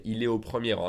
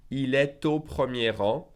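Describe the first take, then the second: First: Quick, est au said without the T; fast, no liaison. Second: Slow, T linked to au; slow with liaison. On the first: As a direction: rattle it off fast. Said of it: "If I said faster". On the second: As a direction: linger and link the T. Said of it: "Slowly, I'll make the liaison". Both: Shown as a demonstration.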